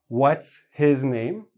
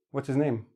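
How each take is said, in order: First: Slow, each sound clear, his rising; careful full form. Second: "What's his name" run together with the H dropped, quieter. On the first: Teacher showing the careful form, slow and clear. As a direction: spell out every sound in "What's his name". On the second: Teacher showing the casual form with the H dropped. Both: Shown as a demonstration. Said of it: "We drop the H and we put it all together".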